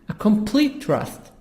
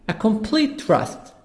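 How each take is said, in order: No difference in how they are said.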